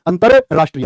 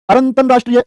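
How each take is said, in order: First: अंतरराष्ट्रीय clean, without the extra r; teacher giving the right अंतरराष्ट्रीय; correct spelling said out. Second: अरंतरराष्ट्रीय with an extra r sound, said as the wrong form; teacher voicing the students' wrong अरंतरराष्ट्रीय; wrong spelling said out. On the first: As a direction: say अंतरराष्ट्रीय as the correct form, calm and clear. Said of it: "ये ठीक तो हो जाएगा". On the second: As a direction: sound out अरंतरराष्ट्रीय as the mistake, a touch higher. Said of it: "एकदम गलत". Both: Shown as a demonstration.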